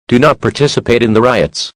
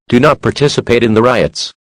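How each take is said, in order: Both takes have the same delivery.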